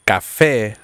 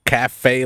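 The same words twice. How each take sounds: First: "café" said the Spanish way, ka-FEH, crisp vowels; "café" as Spanish for coffee, stress on the end. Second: "cafe" said the English way, kah-FAY; "cafe" as in an American diner, flat English vowels. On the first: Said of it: "like Spanish for coffee". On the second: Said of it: "or is it café, like Spanish for coffee". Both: Shown as a demonstration.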